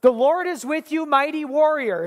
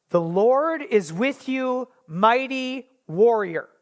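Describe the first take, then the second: First: Higher, bright announcing call; bold proclamation. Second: Slow, measured scripture reading. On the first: Acted. God hailing hiding Gideon, a bold high proclamation. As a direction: proclaim it like a herald. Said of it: "God comes and says". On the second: Shown as a demonstration. Preacher reading the verse to the congregation, slow and measured. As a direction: lay each word down slowly. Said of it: "So the N I V says".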